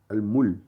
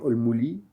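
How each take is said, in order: First: The L is followed by no vowel. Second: The L is followed by an i vowel. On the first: The speaker calls it right. "Ce n'est ni un A, ni un OU, ni un I" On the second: The speaker calls it wrong. "ou bien al-muli"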